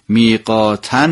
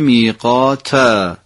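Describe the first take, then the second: First: The word ends with an n sound. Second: The word ends with a long a vowel. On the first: The reciter continues without stopping. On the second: The reciter stops on this word.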